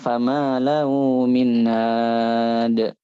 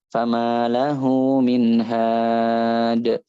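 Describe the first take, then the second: First: The h in the last word is weak. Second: The h in the last word is clear. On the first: The speaker calls it wrong. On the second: The speaker calls it right.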